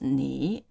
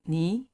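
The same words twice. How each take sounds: First: The syllable has a low dipping third tone. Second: The syllable has a rising second tone. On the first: "the first 你 becomes" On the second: "becomes 你"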